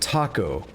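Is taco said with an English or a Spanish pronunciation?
English. It is said with an English pronunciation. The speaker calls it wrong. "in English, we would use the phrase"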